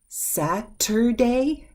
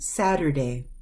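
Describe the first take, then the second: First: The middle consonant is a crisp, released T. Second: The middle consonant is a quick, soft D. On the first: The speaker calls it wrong. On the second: The speaker calls it right. "we soften that T sound"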